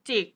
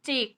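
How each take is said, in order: First: The syllable is said on a low tone. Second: The syllable is said on a level mid tone. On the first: "ก็เสียงต่ำลงจิก" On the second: "ถ้าสามัญก็เป็นจิก"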